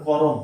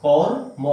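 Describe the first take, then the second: First: করম split into two syllables, ko-rom; wrong way. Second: কর্ম said as one tight syllable, kor-m; careful teacher model; correct pronunciation. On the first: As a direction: say করম with a vowel between র and ম. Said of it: "হবে না". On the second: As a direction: join র straight into ম in কর্ম. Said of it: "ঠিক এইভাবে আমি যেভাবে করেছি". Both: Shown as a demonstration.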